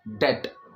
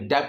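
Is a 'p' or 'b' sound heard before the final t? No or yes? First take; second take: no; yes. First: No sound is heard before the t. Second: A p-like sound is heard before the t. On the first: The speaker calls it right. "डेप्ट नहीं होता है, डेट" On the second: The speaker calls it wrong. "बी की sound नहीं आएगी, डेप्ट नहीं बोलेंगे"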